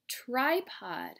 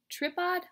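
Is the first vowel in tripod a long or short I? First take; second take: long; short. First: The first vowel is a long I sound. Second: The first vowel is a short I sound. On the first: The speaker calls it right. "Let's give it a long I sound" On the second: The speaker calls it wrong. "No, that doesn't sound right"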